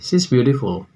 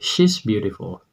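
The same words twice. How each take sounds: First: The first word is light, sounding like 'sea'. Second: The first word is pressed, with a clear 'sh'. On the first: The sea is beautiful. The speaker calls it wrong. "Nyatanya itu artinya laut itu cantik" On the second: The woman is beautiful. The speaker calls it right. "Maka tekan ketika Anda mengucapkan dia perempuan"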